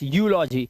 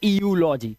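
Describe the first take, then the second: First: It starts directly with a 'yoo' sound. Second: It starts with an extra 'ee' before 'yoo'. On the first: The speaker calls it right. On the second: The speaker calls it wrong. "ना कि"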